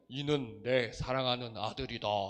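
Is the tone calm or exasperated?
calm. It is said in a calm, gentle tone. It is a plain, gentle announcement. The speaker calls it wrong. "이게 아니에요"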